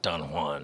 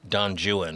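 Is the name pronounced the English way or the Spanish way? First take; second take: Spanish; English. First: The name is pronounced with Spanish sounds. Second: The name is pronounced with English sounds. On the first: "and not" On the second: "the English saying Don Juan"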